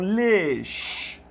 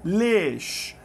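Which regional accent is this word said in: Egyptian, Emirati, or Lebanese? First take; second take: Emirati; Emirati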